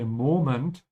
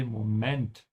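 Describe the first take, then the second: First: Moment with a stretched first syllable, MO-ment; English first-syllable stress. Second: Moment stressed on the second syllable, mo-MENT; stress at the end. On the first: Teacher contrasting English with German, stress on the start of moment. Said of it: "the stretch is here". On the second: Teacher correcting learners' old English habit, stress on the end of Moment. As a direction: push the emphasis onto the end of Moment. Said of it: "Put the emphasis at the end". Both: Shown as a demonstration.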